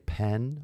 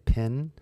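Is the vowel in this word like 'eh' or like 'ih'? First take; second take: eh; ih. First: The vowel sounds like 'eh' in 'bed'. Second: The vowel sounds like 'ih' in 'bit'. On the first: "I don't say pen" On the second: "I say pin. that's just my accent"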